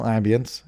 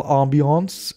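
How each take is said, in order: First: "ambience" said the English way, AM-bee-ence; everyday English "ambience", unstressed ending; English pronunciation. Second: "ambiance" said the French way, ahm-bee-AHNS; Frenchified "ambiance", first vowel as in "calm"; French-style pronunciation. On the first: Shown as a demonstration. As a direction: start "ambience" with the short A of "am". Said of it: "if you prefer to say it like that". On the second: Real, not acted. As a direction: give "ambiance" an open AH start and a French ending. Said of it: "I don't know why I said it like that".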